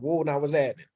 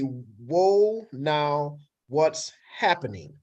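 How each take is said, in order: First: The words run together quickly and are blended. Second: The words are said separately and clearly. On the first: "we talk really fast and we blend words together" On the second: "the sentence in English in English would be"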